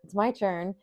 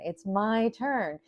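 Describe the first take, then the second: First: It is said anxiously after a gasp. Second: It is said with excited joy.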